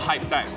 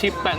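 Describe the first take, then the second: First: The first vowel is long, as in 'hype'. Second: The first vowel is short, as in 'hip'. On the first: The speaker calls it wrong. "not Hype Tech" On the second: The speaker calls it right. "So it's Hip Tech"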